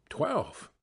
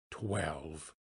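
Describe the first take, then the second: First: Startled exclamation with a sharp falling pitch; a short, falling cry of surprise; astonished exclamation. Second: Low, soft, stunned echo; hushed disbelief. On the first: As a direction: blurt it in astonished disbelief. Scrooge astonished by the striking clock. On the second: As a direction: drop right down, almost to yourself. Scrooge repeats the hour in disbelief. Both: A narrator's reading.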